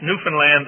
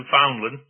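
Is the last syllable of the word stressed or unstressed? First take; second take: stressed; unstressed. First: The last syllable is stressed, rhyming with understand. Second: The last syllable is weak and unstressed. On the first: This is how local people say it. The speaker calls it right. "rhymes with understand" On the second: This is how outsiders say it. The speaker calls it wrong. "not like you Americans pronounce it"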